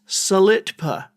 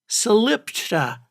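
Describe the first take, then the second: First: The T sound comes before the P. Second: The T sound comes after the P. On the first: This follows the spelling. "the name of it is Salitpa, S A L I T P A" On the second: This is how the locals say it. "doesn't pronounce it Salipta"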